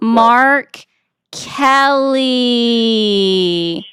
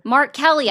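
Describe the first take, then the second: First: It is said very slowly. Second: It is said at normal speed.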